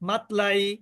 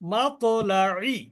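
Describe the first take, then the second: First: The 't' sound stops short without a bounce. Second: The 't' sound ends with an echoing bounce. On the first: The speaker calls it wrong. "এখন তো আমি কলকলা না করি" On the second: The speaker calls it right. "কলকলা ত"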